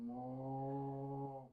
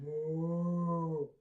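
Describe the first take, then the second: First: Softer moo. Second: Loud hammed-up moo; big mock moo; best moo. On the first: Acted. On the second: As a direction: moo like a proud cow. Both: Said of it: "my best moo".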